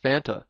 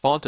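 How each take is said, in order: First: "Fanta" with a short a, like FAN-ta; insisted-on pronunciation. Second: "Fanta" with an open "ah", like FAHN-ta; broad "ah" vowel in "Fanta"; rejected pronunciation. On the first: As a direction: say "Fanta" to rhyme with Santa. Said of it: "it's pronounced Fanta". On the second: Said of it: "it's not pronounced Fanta". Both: Shown as a demonstration.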